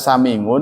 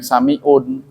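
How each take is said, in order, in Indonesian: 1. Konsonan di tengah adalah bunyi 'ng'. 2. Konsonan di tengah adalah hamzah (hentian glotis), bukan 'ng'. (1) "Kalau orang Jawa Tengah ain dibaca eng" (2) "lebih baik dikasih hamzah"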